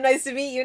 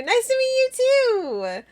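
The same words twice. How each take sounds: First: Said in the usual way. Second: Very high, squeaky playful greeting; sing-song squeak of a hello; high-pitched greeting. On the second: Acted. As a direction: pitch it way up, held on a high note.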